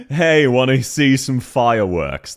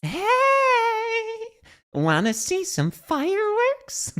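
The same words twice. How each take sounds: First: Australian accent. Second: Very high, slow mock American accent; imitated American character voice. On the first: Shown as a demonstration. Streamer showing how an Australian would pronounce it, slow Australian accent. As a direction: say it slowly in an Aussie accent. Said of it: "how we'd pronounce it in an Australian voice accent". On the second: Streamer copying a game voice line, high slow mock American accent. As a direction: mimic her American line way up high, drawn out. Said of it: "That's more how we'd pronounce it".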